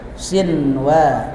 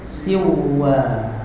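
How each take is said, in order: First: The n sound is pronounced clearly before w. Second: The n sound is merged into the w. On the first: The speaker calls it right. "Harus sinwa" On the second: The speaker calls it wrong. "Gak boleh dibaca gini"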